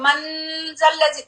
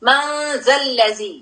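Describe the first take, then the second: First: The n is clear, tongue touching the ridge. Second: The n is hidden as a nasal sound. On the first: The speaker calls it wrong. "आप ऐसे पढ़े मंजल्लजी, तो ये रॉन्ग हो गया है" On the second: The speaker calls it right. "आयतुल कुर्सी में आप पढ़ते हैं"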